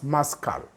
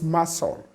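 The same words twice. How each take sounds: First: The c is pronounced as a k sound. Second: The c is silent, with no k sound. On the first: The speaker calls it wrong. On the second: The speaker calls it right.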